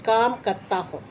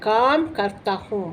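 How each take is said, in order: The two takes are said the same way.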